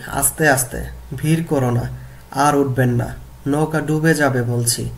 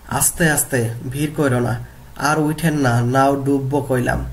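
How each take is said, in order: First: Said in the usual way. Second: Bengali village dialect, read as a classroom example; regional dialect. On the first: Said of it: "প্রমিত রূপ হবে কি?". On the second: Shown as a demonstration. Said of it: "গল্প থেকে আঞ্চলিক বাক্য দেখি".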